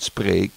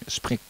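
First: The vowel is a long standard 'ee' sound. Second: The vowel is a short dialect 'i' sound. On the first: "Niet spreek" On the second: "maar sprik"

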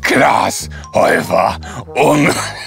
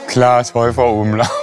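First: The name is said in a silly, exaggerated voice. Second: The name is said in a less silly voice. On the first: "Kannst du das ein ganz bisschen weniger dumm sagen?"

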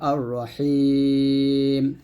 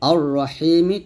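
First: The word ends on a consonant, long vowel stretched. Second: The word ends with a short final vowel. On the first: The reader stops on this word. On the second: The reader continues without stopping.

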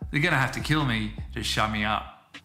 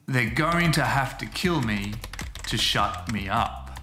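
First: The sentence is said at a fast, natural pace. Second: The sentence is said at a slow, careful pace.

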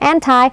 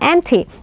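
First: It is said with an American pronunciation. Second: It is said with a non-American pronunciation. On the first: "อเมริกันจะอ่านว่า" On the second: "แต่เราอ่านว่า"

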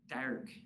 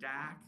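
First: The R after the vowel is pronounced. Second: The R after the vowel is dropped. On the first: This is the younger generation's speech. "a 20-year-old, you'd hear them saying things like dark" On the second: This is the older local speech. "traditional Boston would be pack and dack"

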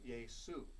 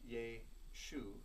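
First: The middle consonant is an s sound. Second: The middle consonant is an sh sound. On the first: This is the Greek form, which lacks that sound. The speaker calls it right. "The Greek language has no SH sound, so they simply use the S" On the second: This is the Hebrew form with its original sound. The speaker calls it wrong. "So it's not Yeshu"

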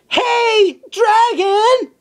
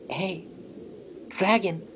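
First: It is shouted very loudly. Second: It is whispered very softly.

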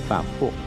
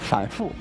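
First: The word is pronounced weakly and slurred. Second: The word is pronounced clearly and crisply.

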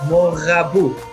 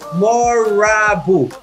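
First: The R is said with an Israeli-style sound. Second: The R is said with an American-style sound. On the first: This is how the listener's community says it. "אתה אומר מורבו" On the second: This is how Americans say it. "ואילו האמריקאי אומר מורבו"

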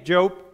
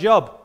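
First: It is said as the biblical name. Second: It is said like the word for work. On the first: It names the man in the Bible. The speaker calls it right. "it took me years to say Job" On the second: It means employment. The speaker calls it wrong. "rather than Job"

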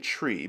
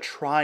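First: The word rhymes with free, with an ee vowel. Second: The word rhymes with fly, with an eye vowel. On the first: "the pronunciation is technically tree" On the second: "Many people call it a try instead"

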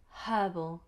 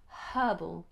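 First: The word starts with an audible h sound. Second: The word starts with an audible h sound.

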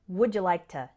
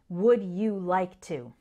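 First: The words run together in one linked stream. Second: Each word is pronounced distinctly and separately. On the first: The speaker calls it right. "Instead, it sounds more like" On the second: The speaker calls it wrong. "we don't pronounce each word distinctly"

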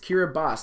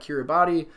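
First: The final 'ti' is pronounced as an s sound. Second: The final 'ti' is pronounced as a tee sound. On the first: The speaker calls it right. "the TI letters make an S sound" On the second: The speaker calls it wrong. "not Kiribati"

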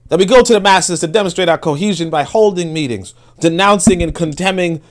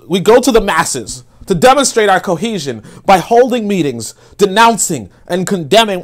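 First: It is said in a more respectful imitation voice. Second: It is said in a mocking caricature voice.

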